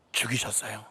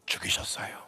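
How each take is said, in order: First: Said in the usual way. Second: 죽이셨어요 breathed out in a low whisper. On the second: Acted. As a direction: let 죽이셨어요 sink to a hushed whisper. Preacher drops to a whisper. (죽이셨어요를 낮게 속삭이듯)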